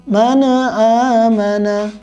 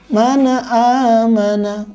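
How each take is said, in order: Both takes have the same delivery.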